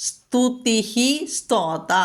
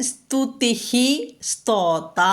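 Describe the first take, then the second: The two takes are said the same way.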